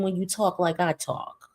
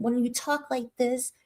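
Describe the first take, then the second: First: Said in the usual way. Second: Softly put-on proper voice; proper talk. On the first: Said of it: "than when you talk like I talk". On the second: Shown as a demonstration. Showing viewers how Tierra talks, mock proper. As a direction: lightly imitate careful, proper speech. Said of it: "people think you're a better person".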